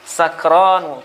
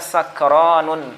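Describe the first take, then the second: First: The word ends on a vowel, with no n. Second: The word ends with an added n sound. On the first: The speaker calls it right. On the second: The speaker calls it wrong.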